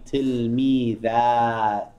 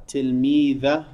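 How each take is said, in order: First: Tilmidat with the final "a" drawn out long; elongated alif. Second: Said in the usual way. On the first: Shown as a demonstration. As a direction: hold the last vowel of tilmidat well before the t. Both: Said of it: "You need to elongate the alif".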